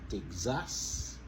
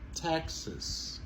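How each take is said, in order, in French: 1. L'accent est sur la deuxième syllabe. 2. L'accent est sur la première syllabe. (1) "C'est pas Texas" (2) "Montez sur première syllabe là"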